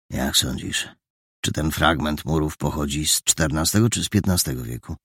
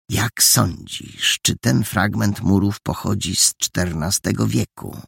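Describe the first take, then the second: First: Lightly voiced thoughtful question; deliberate, measured. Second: Gloating mimicry. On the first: Hidden young man asking his companion about old walls, measured. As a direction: ask it with calm consideration. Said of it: "mówił z rozwagą". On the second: Boy detective mimicking the suspects' question, maliciously satisfied. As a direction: parrot their question with smug scorn. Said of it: "Roześmiał się ze złośliwą satysfakcją". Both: A narrator's reading.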